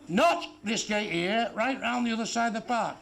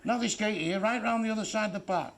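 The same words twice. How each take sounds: First: Slow drawn-out repeat. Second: Said in the usual way. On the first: Retold or imitated. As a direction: stretch it out slowly, word by word. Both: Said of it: "Not in here," he says".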